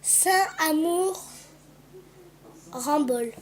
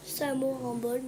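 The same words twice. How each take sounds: First: Each syllable drawn out slowly, reading the engraving. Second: Said in the usual way. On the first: Shown as a demonstration. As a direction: spell out Saint-Amour Rambol slowly. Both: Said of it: "Dessus, il y a écrit".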